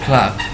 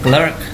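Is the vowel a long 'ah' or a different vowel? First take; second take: long ah; different vowel. First: The vowel is a long 'ah' sound. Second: The vowel is not a long 'ah' sound. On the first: The speaker calls it right. "tapi Clark. Nih A-nya titik dua panjang" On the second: The speaker calls it wrong. "bukan clerk"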